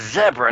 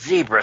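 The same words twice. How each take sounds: First: It is said with a British pronunciation. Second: It is said with an American pronunciation. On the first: "We got a British guy with us. He says zebra" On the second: "not zebra"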